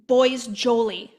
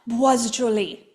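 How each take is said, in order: First: The name is said with an English accent. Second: The name is said with a French accent.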